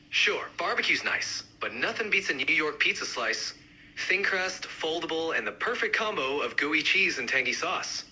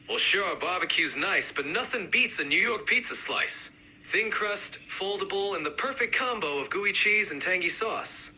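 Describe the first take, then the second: First: Lightly done New York accent. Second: More pronounced New York accent; amped-up New York accent. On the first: Pizza fan countering the barbecue fan, mild New York accent. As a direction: give it a hint of New York. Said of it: "each accent, uh, represented by a speaker". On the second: Pizza fan countering the barbecue fan, amped-up New York accent. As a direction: push the New York sound. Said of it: "really amp up the accents". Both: Shown as a demonstration.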